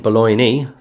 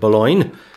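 First: The final E is sounded. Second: The final E is silent. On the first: This is the old pronunciation. "as they would pronounce it then, Boulogne. They pronounce the E" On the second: This is the modern pronunciation. "today the E is silent"

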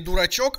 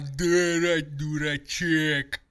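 First: The last vowel is a clear 'o' sound. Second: The last vowel is blurred toward an 'e'. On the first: The speaker calls it right. "не дурачок" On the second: The speaker calls it wrong. "все гласные буквы смешиваются в одну"

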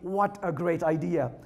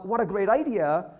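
First: It is said with a sarcastic tone. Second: It is said sincerely and enthusiastically.

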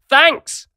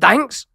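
First: It is said as an emphatic exclamation. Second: It is said as a rising question.

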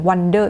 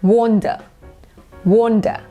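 First: The first vowel is said with unrounded lips. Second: The first vowel is said with rounded lips. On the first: The speaker calls it wrong. "บางคนก็ออกเสียง" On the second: The speaker calls it right. "แต่จริงๆออกเสียงว่า, wonder, สระโอเนาะหอปากเป็นโอ"

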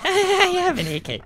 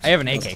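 First: It is said with exaggerated, overdone childlike excitement. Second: It is said with childlike excitement. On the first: "not that much childlike excitement" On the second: "you say that with such childlike excitement"

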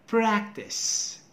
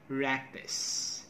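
First: The word begins with a p sound. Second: The opening p sound is left out. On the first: The speaker calls it right. "Do not forget the first sound" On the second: The speaker calls it wrong. "People say rectus"

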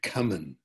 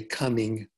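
First: The ing ending is replaced by another sound. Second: The word ends with a full ing sound. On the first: It marks a relaxed, casual speaker. "they said coming, going, okay? They change the ing to this other final velar sound" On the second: It marks a careful, proper speaker. "didn't say coming"

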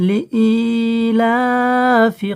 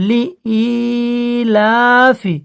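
No difference in how they are said.

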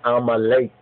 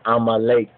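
No difference in how they are said.

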